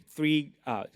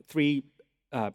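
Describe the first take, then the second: No difference in how they are said.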